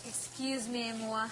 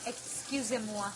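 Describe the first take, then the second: First: "Excuse me, moi" said the English way; "Excuse me, moi" in an English accent, not French; English-style excuse me. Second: Slow, careful French "Excusez-moi"; "Excusez-moi" said slowly and carefully in French; French pronunciation. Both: Shown as a demonstration.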